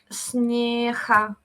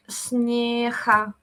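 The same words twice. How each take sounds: First: The g is said the southern way. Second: The g is said the southern way.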